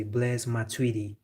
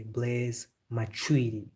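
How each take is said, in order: First: Said in the usual way. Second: Blaise Matuidi said the French way, slowly, the D softened; slow French-style Blaise Matuidi; French pronunciation. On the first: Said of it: "in English, you would say". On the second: Shown as a demonstration. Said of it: "but French, they say".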